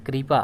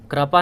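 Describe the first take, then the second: First: कृपा said as kripa, with ri; the right take, kripa with ri; correct pronunciation. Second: कृपा said as krapa, plain a after kr; the wrong take, krapa; wrong pronunciation. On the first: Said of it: "क्री बोलते हैं". (सही उच्चारण, कृपा में क्री) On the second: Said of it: "कृपा नहीं है". (गलत उच्चारण, कृपा को क्रपा बोलना) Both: Shown as a demonstration.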